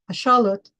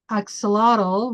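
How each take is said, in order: First: The word is said with a Nahuatl pronunciation. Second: The word is said with an English pronunciation. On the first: The speaker calls it right. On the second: The speaker calls it wrong.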